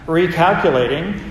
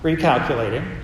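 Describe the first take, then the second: First: The voice sounds angry and exasperated. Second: The voice sounds a little annoyed.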